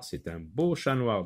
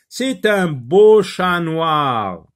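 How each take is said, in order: First: Said in the usual way. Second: Slow, high, very loud model reading; reading a sentence aloud. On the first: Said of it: "Oui, c'est un chat noir". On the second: Shown as a demonstration. Teacher reads the matching phrase to pupils, slow and loud. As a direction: read it out grandly, stretching each word. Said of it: "on va lire la première phrase".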